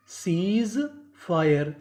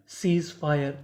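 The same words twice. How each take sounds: First: सीज ... fire, each word drawn out slowly; slow teacher's breakdown of सीज fire; broken into parts. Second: Said in the usual way. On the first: Shown as a demonstration. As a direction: stretch सीज, pause, then fire. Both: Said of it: "टुकड़ों में तोड़ तोड़ के पढ़ें".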